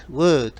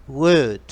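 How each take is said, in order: The two takes are said the same way.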